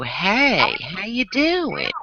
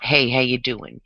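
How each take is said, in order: First: The words are drawn out with extra inflection. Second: The words are said at a normal, quick pace. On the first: The speaker calls it right. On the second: The speaker calls it wrong.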